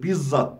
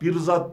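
First: The middle has a long double z sound. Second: The middle has an r before the z. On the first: It means personally. The speaker calls it right. "Bizzat kendim olarak demektir" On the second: It means a person. The speaker calls it wrong. "değil"

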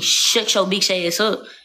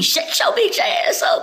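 First: It sounds serious and hostile. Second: It sounds playful and joking.

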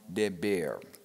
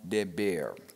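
First: The middle consonant is a b sound. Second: The same.

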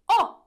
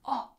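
First: It is said very loudly. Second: It is said very quietly.

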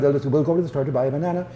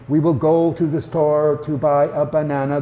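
First: The sentence is spoken quickly, words run together. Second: The sentence is spoken slowly, words kept apart. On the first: "It also lends itself well to a fast delivery" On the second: "rather than saying"

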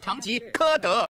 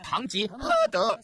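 First: The third syllable is not pronounced he. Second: The third syllable is pronounced he. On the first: The speaker calls it wrong. "不是唐吉诃德" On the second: The speaker calls it right. "叫做唐吉诃德"

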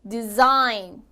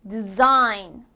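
The two takes are said the same way.

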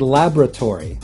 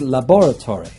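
First: It is said the American way. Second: It is said the British way. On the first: "In the US, they would say" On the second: "In the UK, they would say"

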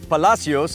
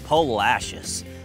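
First: The name is said with a Spanish-sounding pronunciation. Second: The name is said with an Americanized, Texan pronunciation. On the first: This is the pronunciation outsiders might expect. The speaker calls it wrong. "Not Palacios, like you might think" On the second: This is how locals actually say the name. The speaker calls it right. "but the Texified Palacios"

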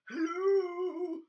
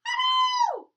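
First: It is said in a low voice. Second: It is said in a high voice.

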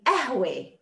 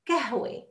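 First: The word begins without a k sound. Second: The word begins with a k sound. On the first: This is one regional dialect form. "And some would say ahwe. The ka becomes a" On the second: This is the form understood everywhere. "Some will say kahwa. Kahwe, ka, and not ka"

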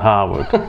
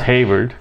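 First: The first syllable sounds like 'har'. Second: The first syllable sounds like 'hay'. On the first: The speaker calls it wrong. "Not Harvard" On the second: The speaker calls it right. "It's Hayward"

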